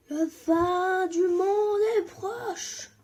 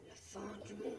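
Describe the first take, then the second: First: Higher, louder, slow sung prophecy; mock doom chant. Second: Softer, whispered doom prophecy; ominous whisper. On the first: Gamer mock-sings doom to viewers, slow and loud. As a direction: sing it like a theatrical prophet. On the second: Pretend. Gamer jokingly whispers to viewers of doom. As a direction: hush it like a secret warning.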